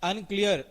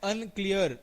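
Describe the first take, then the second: No difference in how they are said.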